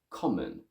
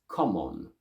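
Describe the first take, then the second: First: The second syllable is reduced to a schwa. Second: Both vowels keep equal strength and length. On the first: "In English, I say common" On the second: "if I were to read it in Italian, I would keep the same strength and length of both vowel sounds"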